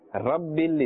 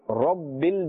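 First: The R sounds thin and light. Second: The R sounds thick with a full mouth. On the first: The speaker calls it wrong. "Rabbil is incorrect" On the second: The speaker calls it right. "must be pronounced with a thick tone or a full mouth"

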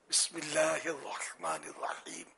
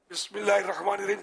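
First: It is recited slowly and carefully. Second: It is recited quickly and hurriedly. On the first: The speaker calls it right. "صحیح پڑھنا ہے" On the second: The speaker calls it wrong. "جلدی ہوتی ہے، اس طرح کر لیتے"

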